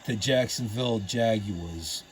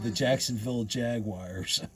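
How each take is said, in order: First: Jaguars is said with a British-style pronunciation. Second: Jaguars is said with an American pronunciation. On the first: The speaker calls it wrong. "it would be kind of weird in the N F L saying" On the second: The speaker calls it right. "So we call them"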